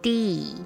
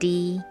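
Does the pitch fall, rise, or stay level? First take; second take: fall; level. First: The pitch falls at the end. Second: The pitch stays level throughout.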